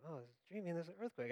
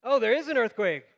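First: Very soft, quick sleepy aside; acted dreaming. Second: High, loud jolt of alarm; startled realization. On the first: Sleeper noting an earthquake in a dream, dreamily soft. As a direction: murmur it as if still dreaming. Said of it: "I'm dreaming like". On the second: Retold or imitated. Sleeper waking to find the earthquake real, startled. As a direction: burst out, leaning on IS. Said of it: "panic and freak out".

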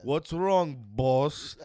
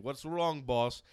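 First: Loud driver impression. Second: Driver impression. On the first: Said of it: "they always call you boss". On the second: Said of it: "He's like".

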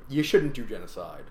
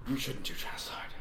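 First: Said in the usual way. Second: Whispered aside. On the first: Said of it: "whispered repeat". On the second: Shown as a demonstration. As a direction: hush it to a whisper. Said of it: "said twice, second whispered".

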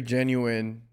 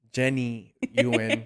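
First: Said in the usual way. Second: "Jenny Ewan" said as two names, with a gap; punning split word. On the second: Shown as a demonstration. Host punning on guest's name, "Jenny Ewan" split in two. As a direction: break "genuine" into "Jenny" and "Ewan".

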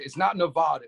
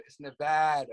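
First: Nevada with a broad "ah" in the middle, Ne-VAH-da; mispronounced Nevada. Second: Nevada with a short flat "a", Ne-VAD-a; corrected Nevada. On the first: Wrestler correcting hosts on his states, Nevada said with "vah". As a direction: say Nevada the wrong way, middle vowel as in "father". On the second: Wrestler correcting hosts on his states, Nevada said with "vad". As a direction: say Nevada with the middle vowel as in "cat". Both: Shown as a demonstration. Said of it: "I'll correct you".

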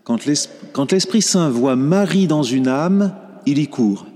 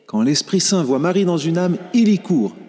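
First: Said in the usual way. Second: Higher, stronger, landing on court; emphatic repeat. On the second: Shown as a demonstration. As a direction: hammer the maxim home the second time. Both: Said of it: "repeated phrase for emphasis".

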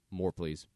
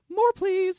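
First: Said in the usual way. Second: Very high, loud put-on voice; squeaky-high begging; high-pitched plea. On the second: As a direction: plead it loudly, way up high.

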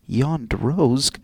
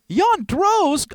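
First: Low, measured reading of a signature; formal read-aloud name; letter sign-off. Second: High, loud, incredulous cry; aghast, pitch way up; shocked repeat. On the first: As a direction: sign off solemnly, falling at the end. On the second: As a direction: yelp the name in disbelief. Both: Acted.

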